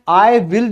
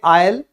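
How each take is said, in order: First: It is said as two full words. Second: It is said as one contracted syllable.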